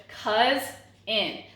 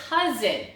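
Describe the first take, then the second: First: "cousin" slowly broken in two, cuz, pause, in; teacher's syllable-by-syllable "cousin", with a clear gap; split into syllables. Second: Said in the usual way. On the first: Shown as a demonstration. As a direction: sound out "cousin" one syllable at a time. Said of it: "So we have two syllables". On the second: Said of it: "we have two syllables".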